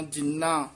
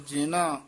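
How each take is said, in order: First: ਜਿੰਨਾ as jin-naa, n held; ਜਿੰਨਾ with doubled n. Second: ਜਿਨਾ as ji-naa, short n; ਜਿਨਾ with single n. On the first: Teacher contrasting spellings, ਜਿੰਨਾ with a long nasal n. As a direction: hold the n in ਜਿੰਨਾ. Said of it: "ਉੱਤੇ ਟਿੱਪੀ". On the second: Teacher contrasting spellings, ਜਿਨਾ with one light n. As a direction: say ਜਿਨਾ without doubling the n. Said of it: "ਜੱਜੇ ਸਿਆਰੀ ਨੰਨੇ ਕੰਨਾ". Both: Shown as a demonstration.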